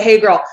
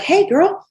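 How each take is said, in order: First: Louder, self-mocking repeat of the greeting; mock hey girl. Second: High, sugary greeting to a prospect; gushing hey girl. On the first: Laughing at her own cliché, a louder mock greeting. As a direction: say it again, poking fun at yourself. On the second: Shown as a demonstration. Coaching stylists on messaging, a gushing high greeting. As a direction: chirp it up high like a bubbly friend. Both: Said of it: "Oh my God, I said the".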